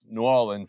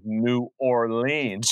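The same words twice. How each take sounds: First: It is pronounced the way locals say it. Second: It is pronounced the way northern outsiders say it. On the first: The speaker learned this from spending time there. The speaker calls it right. "which is why I call it New Orleans now" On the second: This is how the speaker said it before knowing better. The speaker calls it wrong. "instead of New Orleans ... that's what we thought it was in our northern ignorance"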